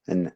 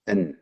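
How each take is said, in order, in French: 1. Le n est à peine prononcé, léger et soufflé. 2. Le n est entièrement prononcé contre le palais. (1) "Tu peux pas dire an" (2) "Tu dois dire an"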